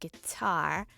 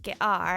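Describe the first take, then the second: First: The t sound is a clear t. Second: The t sound is a glottal stop. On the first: The speaker calls it right. "instead of guitar" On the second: The speaker calls it wrong. "You probably won't get guitar"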